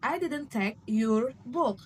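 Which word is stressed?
your. The word your carries the main stress. It was someone else's book. "suggesting it was some else's book"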